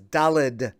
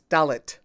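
First: The word ends with a D sound. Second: The word ends with a T sound. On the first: The speaker calls it wrong. "with a D at the end, but that's not correct" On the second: The speaker calls it right. "with a T at the end"

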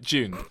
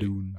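First: The word is said in a British way. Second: The word is said in an American way. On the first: The speaker calls it wrong. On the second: The speaker calls it right.

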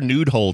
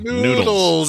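First: The word sounds like 'nude hole'. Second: The word sounds like 'noodles'. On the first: The speaker calls it wrong. "I said it wrong" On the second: The speaker calls it right. "Noodles. Yes. Not nude hole"

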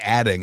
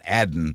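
First: The word ends with a full g sound. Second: The word ends without the final g sound. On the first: This is the expected, natural way for him to speak. The speaker calls it right. "I sort of expect Obama to say adding" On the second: This is a folksy style that sounds forced from him. The speaker calls it wrong. "not adding"

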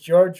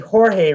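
First: The name is said the English way, George. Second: The name is said the Spanish way, Jorge. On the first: This is how the bearer of the name says it. "but he pronounces it George Ramirez" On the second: This is how the spelling suggests the name is said. "it looks like it'd be Jorge Ramirez"

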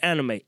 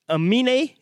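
First: The n sound comes before the m sound. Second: The m sound comes before the n sound. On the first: The speaker calls it wrong. "I thought this fella's name was [name]" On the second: The speaker calls it right. "It's [name]"

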